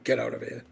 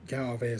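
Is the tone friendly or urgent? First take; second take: urgent; friendly. First: It is said as an urgent warning. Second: It is said in a friendly, nice way.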